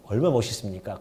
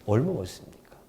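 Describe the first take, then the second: First: Said in the usual way. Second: 얼마나 멋있습니까 breathed in a soft whisper. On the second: Shown as a demonstration. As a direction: hush it as if sharing a secret. (속삭이듯 조용히)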